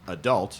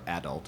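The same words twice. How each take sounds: First: The stress is on the second syllable. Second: The stress is on the first syllable.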